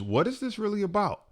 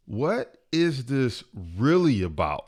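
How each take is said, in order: First: "what is this really about" pitched high throughout; high questioning. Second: "What is this really about" slowed, with weight on "really"; slow, emphatic repeat. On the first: Speaker posing his first question, "what is this really about" pitched high. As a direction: pose "what is this really about" quickly in a raised voice. Question posed, then repeated slowly. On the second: Speaker driving the question home, "really" slow and emphatic. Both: Shown as a demonstration.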